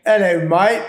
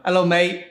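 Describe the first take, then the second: First: Higher, louder British greeting; echoed English accent on request. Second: Quick British greeting; cheery British accent demo. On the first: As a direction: toss off a cheery English hello. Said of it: "can you give us a little bit of that". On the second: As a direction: say it like a Londoner. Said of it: "just take a little bit". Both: Shown as a demonstration.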